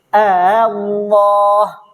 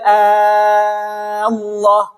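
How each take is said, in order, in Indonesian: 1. Hamzah kedua dilunakkan, setengah jalan menuju vokal. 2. Hamzah kedua menjadi vokal panjang, dibaca panjang. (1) "maksudnya tashil itu" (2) "Kalau ibdal ... panjangkan dia enam harokat"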